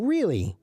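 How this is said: It sounds interested and engaged. The listener finds the news interesting. "maybe new that you didn't know and you think it's interesting"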